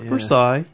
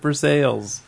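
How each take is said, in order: First: It is said the French way, with silent letters. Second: It is said with all the letters sounded. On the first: The speaker calls it wrong. "Not Versailles, even though it's spelled that way" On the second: The speaker calls it right. "We pronounce all the letters"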